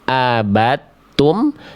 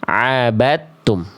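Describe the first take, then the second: First: It starts with a light glottal stop. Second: It starts with a tense, pressed throat sound. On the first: The speaker calls it wrong. "Jangan sampai dibaca" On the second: The speaker calls it right. "tapi dibaca"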